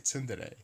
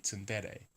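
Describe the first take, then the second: First: The stress is not on the 'de' syllable. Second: The stress is on the 'de' syllable. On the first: The speaker calls it wrong. "I always say tsundere, which is not it" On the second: The speaker calls it right. "the stress is on the de of dere, so it would be tsundere"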